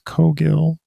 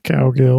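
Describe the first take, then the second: First: The first syllable sounds like 'co'. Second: The first syllable sounds like 'cow'. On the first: The speaker calls it right. "It's pronounced Cogill" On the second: The speaker calls it wrong. "not Cowgill"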